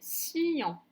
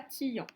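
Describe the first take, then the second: First: The syllable begins with an s sound. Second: The syllable begins with a t sound. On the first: The speaker calls it right. "ça se prononçait sciant" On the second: The speaker calls it wrong. "et non pas tillant"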